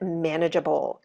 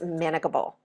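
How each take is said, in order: First: The g is pronounced soft, as in gem. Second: The g is pronounced hard, as in go. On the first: The speaker calls it right. "you have to keep the E in manageable" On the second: The speaker calls it wrong. "otherwise it's manageable"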